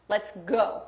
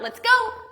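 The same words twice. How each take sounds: First: It is said calmly, ending low. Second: It is said excitedly, ending high.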